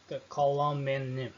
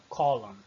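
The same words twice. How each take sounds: First: "column" with the final n sounded; wrong column with n. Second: "column" as "colum", no final n; silent n. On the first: Teacher shows the wrong way to say it, with n. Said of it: "Não, column". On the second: Teacher gives the correct form, silent n. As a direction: stop on the m in "column". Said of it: "não pronuncio o N no final". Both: Shown as a demonstration.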